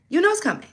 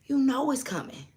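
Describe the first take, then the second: First: Insistent, higher "You know it's coming"; emphatic repeat. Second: Said in the usual way. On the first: Shown as a demonstration.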